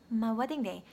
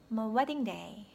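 First: The word my is weak and barely heard. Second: The word my is weak and barely heard.

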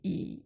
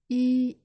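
First: The pitch dips low then rises. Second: The pitch stays high and level.

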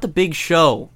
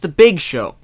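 First: The stress falls on the word Show. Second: The stress falls on the word Big. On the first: The speaker calls it wrong. "It's not the Big Show" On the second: The speaker calls it right. "The stress is on Big, not Show"

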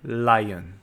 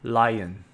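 First: It is said with an English L sound. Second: The same.

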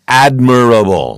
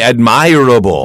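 First: The stress falls on the first syllable. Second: The stress falls on the second syllable. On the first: The speaker calls it right. "This is the correct pronunciation" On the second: The speaker calls it wrong. "I would not say admirable"

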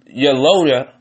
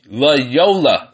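First: The name begins with a y sound. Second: The name begins with an l sound. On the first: The speaker calls it wrong. "Maybe I'm just pronouncing it wrong" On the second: The speaker calls it right. "That's how you pronounce it"

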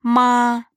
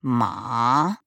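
First: The pitch stays high and level. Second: The pitch dips low, then rises. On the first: "Первый тон – «ма»" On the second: "третий тон – «ма»"

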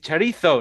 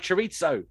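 First: It is said with a Spanish-style pronunciation. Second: It is said with an anglicized English pronunciation. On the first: The speaker calls it right. "it's chorizo" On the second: The speaker calls it wrong. "not chorizo"

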